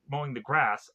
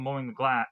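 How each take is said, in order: First: "grass" with a clear R, falling; corrected word. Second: "gla-" with an L, cut off mid-word; slip of the tongue. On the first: Narrator correcting the slip, saying grass properly. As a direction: fix it to "grass" with a firm R. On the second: Narrator mispronouncing grass while retelling the movie. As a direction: say "gla-" as a stray glass slip, then stop. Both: Real, not acted. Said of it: "I keep saying glass".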